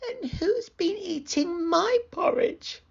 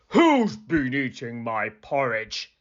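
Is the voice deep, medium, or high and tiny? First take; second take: high and tiny; deep. First: It is said in a high, tiny voice. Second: It is said in a deep, gruff voice.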